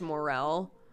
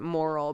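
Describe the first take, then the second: First: It sounds like mo-rel, unlike moral. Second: It sounds like the word moral. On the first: The speaker calls it right. "apparently it's morel" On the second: The speaker calls it wrong. "I've always pronounced it moral"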